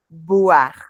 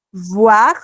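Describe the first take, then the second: First: Boire with a clear B, lips together; "boire" with both lips closing; B bilabial. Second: Voir with a clear V, teeth on lip; V dentilabial. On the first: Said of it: "son solo los labios". ("boire" con B, los dos labios se tocan) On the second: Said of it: "la V es, eh, dentilabial". ("voir" con V, dientes sobre el labio) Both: Shown as a demonstration.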